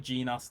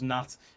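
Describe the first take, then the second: First: The word starts with a hard G sound. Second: The word starts with a plain N sound. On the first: The speaker calls it wrong. "If you say Gnat, then you are weird and stupid" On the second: The speaker calls it right. "It's pronounced Nat"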